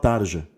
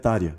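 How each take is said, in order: First: The j sounds like the s in measure. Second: The j sounds like the y in yes. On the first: The speaker calls it wrong. "O pessoal que falava Tarja" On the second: The speaker calls it right. "mas é [name]. ... o J ainda é um I"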